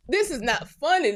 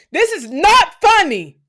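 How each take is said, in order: First: Said in the usual way. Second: High, loud, slow "This is not funny" with "not" hit hard; half-laughing protest blown up loud; exasperated outburst. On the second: Real, not acted. Ranting about mud huts, loud exasperated protest.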